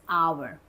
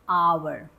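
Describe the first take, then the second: Both takes have the same delivery.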